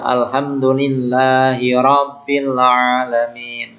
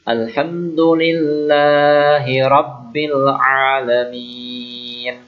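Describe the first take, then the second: First: The 'b' in Rabbil is said short. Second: The 'b' in Rabbil is held doubled. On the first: The speaker calls it wrong. "kadang ada anak yang baca" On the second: The speaker calls it right. "Rabb ya pakai Rabb"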